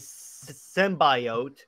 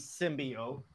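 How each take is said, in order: First: The word is pronounced in an odd way. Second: The word is pronounced in the usual way.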